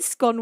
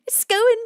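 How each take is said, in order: First: The vowel rhymes with 'gone'. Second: The vowel rhymes with 'own'. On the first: The scone has already been eaten. "scone once you've eaten it" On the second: The scone has not been eaten yet. "scone before you eat it"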